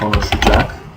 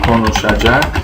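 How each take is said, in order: First: Some sounds in the word are dropped or shortened. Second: Every syllable of the word is said fully. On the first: "or just" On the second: "O konuşacak"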